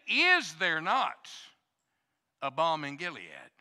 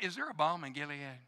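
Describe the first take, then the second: First: It sounds like an emphatic, rhetorical question. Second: It sounds like a casual, curious inquiry.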